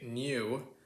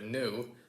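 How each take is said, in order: First: A y sound comes before the vowel. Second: A plain oo vowel with no y sound. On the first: "posh Brits and some Americans do say new" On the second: "instead of new"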